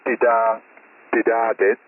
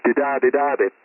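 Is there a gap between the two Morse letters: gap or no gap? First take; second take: gap; no gap. First: There is a gap between the two letters. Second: The two letters run together without a gap. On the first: Two separate letters are sent. The speaker calls it wrong. "it doesn't sound like dida, didadit" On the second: It signals the end of the transmission. The speaker calls it right. "when conjoined, it sounds like didadidadit"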